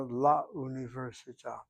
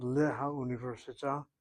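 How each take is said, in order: First: "la università" with the hey dropped, la joined on; contracted article form. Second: "le ha università" with le and ha as two syllables; uncontracted error form. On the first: Teacher correcting the lamed form, contracted "la". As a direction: say "la università", one "la" replacing le-ha. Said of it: "but rather la università". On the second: Teacher showing the lamed error to avoid, uncontracted "le ha". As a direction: keep "le ha" separate before "università". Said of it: "It's not le ha università". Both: Shown as a demonstration.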